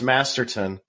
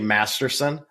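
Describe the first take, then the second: First: The middle consonant is a t sound. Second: The middle consonant is an s sound. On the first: The speaker calls it right. "I know it's Masterton" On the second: The speaker calls it wrong. "I say Masterson. I don't know why"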